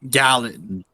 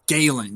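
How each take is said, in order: First: The name is said like 'gallon', short first vowel. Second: The name is said like 'Galen', long first vowel. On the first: The speaker calls it wrong. "not Gallon" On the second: The speaker calls it right. "It's Galen"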